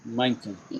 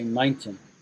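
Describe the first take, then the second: First: The T sound in the middle is pronounced. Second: The same.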